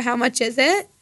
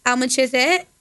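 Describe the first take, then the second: First: Said in the usual way. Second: Slurred regional accent with dropped H; regional accent demo. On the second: Shown as a demonstration. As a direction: say "How much is it" in an accent, dropping the H. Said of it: "some other accent is".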